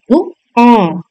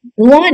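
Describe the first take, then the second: First: धुआं in two beats, nasal on the आ; correct pronunciation. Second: धुआं run together, without a clear nasal; wrong pronunciation. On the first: Teacher showing chandrabindu to pupils, nasalised pronunciation. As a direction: draw out धुआं as "dhu-aan". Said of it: "आ के ऊपर आपका चंद्र बिंदु". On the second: Teacher rejecting a misspelling, wrong pronunciation. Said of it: "धुआं नहीं". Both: Shown as a demonstration.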